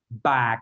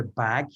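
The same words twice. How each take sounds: First: "bag" stopped dead, no breath after; dead final consonant. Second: "bag" ending on a puff of breath; released final consonant. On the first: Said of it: "So it would stop dead". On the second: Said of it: "you can feel the breath". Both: Shown as a demonstration.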